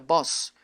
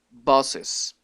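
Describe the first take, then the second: First: It is said as one syllable, no added vowel. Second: It is said as two syllables, with an added vowel. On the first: The speaker calls it wrong. "esta palabra ya no se pronuncia boss" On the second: The speaker calls it right. "sino que se pronuncia bosses"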